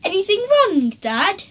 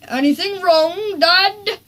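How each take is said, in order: First: High, sugary innocent question; Henry feigning innocence to his dad; sweetest voice. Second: Sweetest voice. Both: A narrator's reading. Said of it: "in his sweetest voice".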